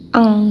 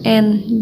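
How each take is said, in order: First: The n sound is hidden with a nasal hum. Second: The n sound is pronounced clearly and fully. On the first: The speaker calls it right. "jadi ang ya" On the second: The speaker calls it wrong. "dibacanya bukan n"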